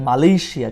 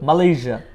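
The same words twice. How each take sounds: First: The consonant near the end is an 'sh' sound. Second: The consonant near the end is a 'zh' sound. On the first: The speaker calls it wrong. "আমরা বলি এটাকে মালয়েশিয়া, কিন্তু মালয়েশিয়া না" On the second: The speaker calls it right. "এইজার মতো করে এটাকে উচ্চারণ করতে হয়"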